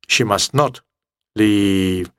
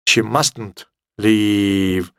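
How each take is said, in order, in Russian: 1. 'Not' произносится как отдельное полное слово. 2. 'Not' сокращается и сливается с 'must'. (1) "Must not" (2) "Или сокращенно"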